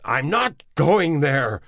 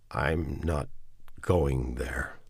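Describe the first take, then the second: First: High, loud and slow, NOT hit hard; loud slow refusal, stress on NOT; shouting. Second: Said in the usual way. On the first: Acted. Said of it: "Neville shouted". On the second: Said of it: "he said".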